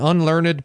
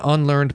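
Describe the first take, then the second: First: The -ed ending is a separate syllable. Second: The -ed ending is not a separate syllable. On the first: "I'll read all my EDs there" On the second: "I'm against pronouncing the EDs"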